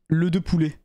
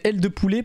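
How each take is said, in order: First: The first word sounds like the article 'le'. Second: The first word sounds like the letter L. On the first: The speaker calls it wrong. "pas le de poulet" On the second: The speaker calls it right. "si tu prononces bien mon pseudo, c'est L de poulet"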